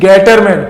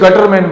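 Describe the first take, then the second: First: The first vowel sounds like 'ay'. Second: The first vowel sounds like 'uh'. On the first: The speaker calls it right. "Is गेटरमैन" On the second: The speaker calls it wrong. "कुछ बच्चे गटरमैन बोलते तो ये गलत है"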